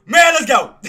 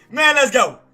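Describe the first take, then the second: First: Loud, high hype shout; excited cheer. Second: Loud hype shout, slightly less high; excited cheer again. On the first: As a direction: celebrate the win at full volume. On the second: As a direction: keep cheering the win. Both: Real, not acted. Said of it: "I'm just excited".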